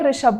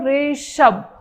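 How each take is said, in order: First: The name is said quickly at normal length. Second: The name is stretched out and said slowly. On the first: This is how a healthy speaker says it. The speaker calls it right. "मैंने बोल दिया ऋषभ" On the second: This is how a paralysis patient says it. The speaker calls it wrong. "मतलब words बहुत ज्यादा extend हो जाते हैं"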